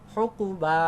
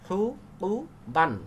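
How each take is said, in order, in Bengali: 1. শব্দটি খোলা 'a' স্বরধ্বনি দিয়ে শেষ হয়। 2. শব্দটি n ধ্বনি দিয়ে শেষ হয়।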